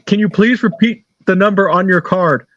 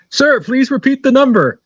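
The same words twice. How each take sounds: First: Said in the usual way. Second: Higher-pitched, mock-exasperated request; insistent telemarketer. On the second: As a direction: imitate a telemarketer losing patience. Retold telemarketer repeats his request, losing patience.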